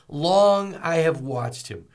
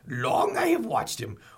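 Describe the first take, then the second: First: It is said in the speaker's normal voice. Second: It is said in a put-on character voice.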